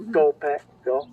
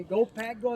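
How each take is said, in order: First: Said in the usual way. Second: Hand over mouth. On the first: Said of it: "say that cheer in reverse order". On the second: Shown as a demonstration. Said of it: "Put your hands over your mouth like a megaphone".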